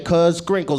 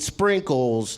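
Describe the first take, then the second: First: The word starts with an extra k sound. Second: The word starts plainly, with no k sound. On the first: The speaker calls it wrong. "I think the first K is silent" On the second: The speaker calls it right. "you mean sprinkles?"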